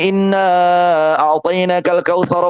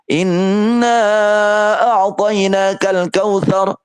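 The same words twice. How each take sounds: First: It is recited at a quick pace. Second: It is recited at a moderate pace. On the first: "Maka hadir pun juga dengan begitu juga" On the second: "Tapi ketika tadwir"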